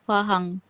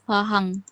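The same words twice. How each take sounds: First: It is said with Bugis sounds. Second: The same.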